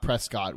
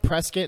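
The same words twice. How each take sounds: First: The ending is a full 'cot' sound. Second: The ending is reduced, rhyming with 'biscuit'. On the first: The speaker calls it wrong. "not Prescott" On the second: The speaker calls it right. "it's pronounced Prescott"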